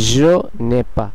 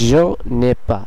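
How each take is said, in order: First: The vowel of 'ne' is dropped and linked. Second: The same.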